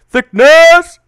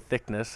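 First: It is said in an exaggerated put-on voice. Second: It is said in a normal speaking voice.

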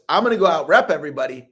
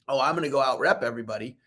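First: It is said firmly, with strong conviction. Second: It is said casually, without conviction.

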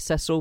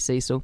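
First: The name is said the British English way. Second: The name is said the American way.

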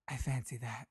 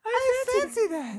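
First: It is said in a deep, manly voice. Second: It is said in a lighter, campy voice.

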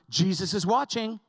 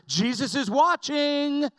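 First: It is said a little louder. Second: It is said loudest of all.

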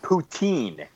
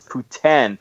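First: The last syllable sounds like 'teen'. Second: The last syllable sounds like 'tin'. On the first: The speaker calls it wrong. "It is not poutine. There is no teen" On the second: The speaker calls it right. "It is Putin"

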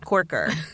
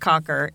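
First: The first vowel is an 'or' sound. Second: The first vowel is a short 'o' sound. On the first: "and it's not Corker" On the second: "It's not Cocker"

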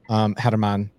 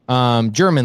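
First: The name begins with an H sound. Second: The name begins with a J sound.

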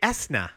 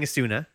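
First: No vowel is heard after the s. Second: A vowel is heard after the s. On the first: "Am we not supposed to pronounce the U?" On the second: "I was saying Esuna"

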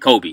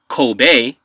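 First: It is said the American way. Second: It is said the Japanese way.

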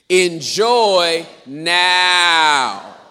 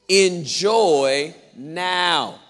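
First: It is very loud with a long 'now'. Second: It is said a little louder.

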